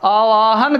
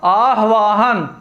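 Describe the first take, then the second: First: आवाहन without early h, ā-vā-han; wrong pronunciation. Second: आह्वाहन slowly, āh-vā-han; slow आह्वाहन, breathing h before v; correct pronunciation. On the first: Teacher quoting the word to replace, wrong pronunciation. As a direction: glide from aa straight to v in आवाहन. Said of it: "की जगह क्या हो जाएगा?". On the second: Teacher answering with the replacement, correct pronunciation. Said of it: "आवाहन की जगह क्या हो जाएगा?". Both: Shown as a demonstration.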